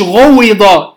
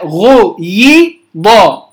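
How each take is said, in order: First: غوض said slowly with a rounded u vowel, marked as wrong; wrong form demo. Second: غيض said very slowly with a clear i vowel, marked as right; correct form demo. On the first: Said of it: "مش غوض". (نطق غوض بضمة ببطء كصيغة خاطئة) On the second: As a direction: drag out the correct غيض with a pure i. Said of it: "لا، غيض". (نطق غيض بكسرة واضحة ببطء شديد) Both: Shown as a demonstration.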